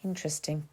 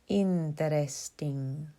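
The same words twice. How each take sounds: First: Said in the usual way. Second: Drawn-out syllables in a put-on Spanish accent; string the word out slowly, Spanish-style; mock Spanish accent. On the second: A narrator's reading. Young man teases a reader of Borges, mock Spanish accent. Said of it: "He strung out the syllables in a mock Spanish accent".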